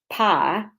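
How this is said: The vowel is a flat ah sound.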